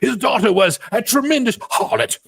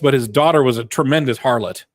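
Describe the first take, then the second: First: It is said in a grand, theatrical voice. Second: It is said in a plain, casual voice.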